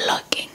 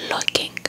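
No difference in how they are said.

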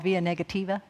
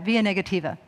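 First: "via negativa" in a Southern accent. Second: Said in the usual way. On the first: Real, not acted. Speaker learned Latin in the South, Southern accent. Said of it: "say that with a Southern accent". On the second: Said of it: "try and say it right".

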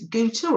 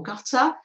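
First: GUTTER said with a long first vowel, like "gooter"; trying a pronunciation. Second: GUTTER said with a short "uh" in the first syllable; alternative pronunciation. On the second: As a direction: give gutter a short first vowel, "GUT-er". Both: Shown as a demonstration. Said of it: "is that how you pronounce it".

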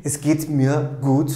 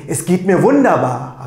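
First: Even, calm "Es geht mir gut" with a small rise on "gut"; calm melody. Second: Bright rising tune on "Es geht mir wunderbar"; upgoing melody. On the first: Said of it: "with a calm melody". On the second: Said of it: "with a great melody, upgoing melody". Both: Shown as a demonstration.

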